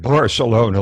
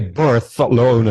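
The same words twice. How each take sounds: First: The 'c' is said as a plain 's'. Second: The 'c' is said with a lisped 'th'. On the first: The speaker sounds like everyone else. "like the rest of us" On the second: The speaker passes as a true Spaniard. "drop in the lisp"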